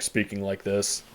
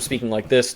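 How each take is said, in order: First: The voice is lowered to a deeper register. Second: The voice is at a normal speaking pitch. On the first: "he just lowers the the register of his voice" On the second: "he goes from speaking like this"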